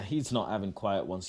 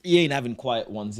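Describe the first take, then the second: First: Said in the usual way. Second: Loud scoffing denial; emphatic. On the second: Real, not acted. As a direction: laugh off the idea, loudly. Teammate scoffing at quiet drinks plan.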